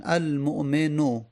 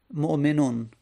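First: المؤمنو ending in an open vowel, al-mu'meno; no tanwin. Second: مؤمنون ending in "-on", with an audible n; tanwin ending. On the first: Teacher showing the article form, المؤمنو ending "-no". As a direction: leave المؤمنو without a final n. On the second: Teacher showing the form without article, مؤمنون ending "-non". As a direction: sound the tanwin n closing مؤمنون. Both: Shown as a demonstration.

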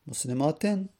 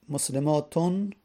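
First: مسلماتن ending in a short "-in"; kasra ending. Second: مسلماتون ending in a clear "-un"; damma ending. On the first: Teacher showing students case vowels, kasra ending. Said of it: "یه بار کسره". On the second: Teacher showing students case vowels, damma ending. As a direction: say مسلماتون with a final u-sound plus n. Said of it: "یه بار دمه". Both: Shown as a demonstration.

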